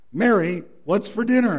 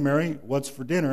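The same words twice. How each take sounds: First: Raised, higher call of her name; loud call. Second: Said in the usual way. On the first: Retold or imitated. Husband right beside his wife, calling out loud.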